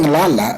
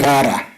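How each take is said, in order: First: The word is said with L sounds. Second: The word is said with R sounds. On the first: "Instead of saying lala" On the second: "they'll say rara. So they tend to come out with an R instead of an L"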